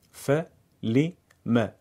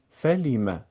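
First: "فلم" split very slowly into syllables. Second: Said in the usual way. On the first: Shown as a demonstration. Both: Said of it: "هجا هجا بخونید".

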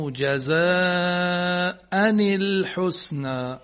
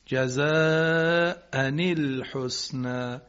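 First: جزاء الحسنی very slow, nun with kasra into ال; drawn-out جزاء نِ الحسنی; kasra on the nunation. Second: جزاء الحسنی slowly with a clear ني linking; kasra on the nunation. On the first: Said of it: "بحث ما همینه". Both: Shown as a demonstration.

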